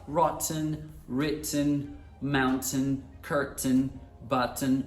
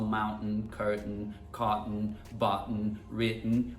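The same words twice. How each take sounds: First: "rotten, written, mountain, curtain, button" each with a released T and vowel, as rot-ten; careful list, "button" as but-ten; British sounded T. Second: "mountain, curtain, cotton, button, written" each with T swallowed before n; low, even list, "button" as bu'n; British glottal stop. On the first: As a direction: sound every T clearly, as in "written" writ-ten. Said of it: "uma grande parte que fala". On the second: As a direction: catch the breath in place of T, as in "written" wri'n. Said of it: "usam o glottal stop nessas palavras". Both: Shown as a demonstration.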